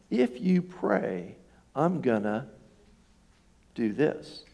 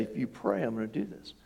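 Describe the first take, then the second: First: Slow, drawn-out threat, lightly voiced; imitated threat. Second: Quiet, lightly voiced bully threat; mock bully. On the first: Something threatens him over praying, slow mock threat. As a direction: spell out a mild threat, word by word. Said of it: "something was saying". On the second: The devil bullies him over praying, understated mock threat. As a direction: puff out the chest, but keep it soft. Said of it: "puff his chest out and say".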